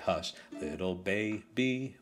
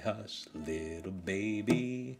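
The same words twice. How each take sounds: First: The stress falls on the first syllable of baby. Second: The stress falls on the second syllable of baby. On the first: The speaker calls it wrong. "We don't say" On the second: The speaker calls it right. "We say"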